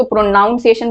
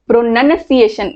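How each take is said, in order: First: प्रोनाउंसिएशन said as "pro-noun-ciation"; common mispronunciation. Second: प्रोनंसिएशन slowly, as "pro-nun-ciation"; correct pronunciation. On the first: Teacher quoting a common mistake, प्रोनाउंसिएशन with an "ow" sound. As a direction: put the word noun inside प्रोनाउंसिएशन. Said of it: "लोग इसको प्रोनाउंसिएशन बोलते हैं". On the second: Teacher modelling the actual reading, प्रोनंसिएशन slow with a short "nun". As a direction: say प्रोनंसिएशन with "nun", not "noun". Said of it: "इसको ऐसा read करते हैं". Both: Shown as a demonstration.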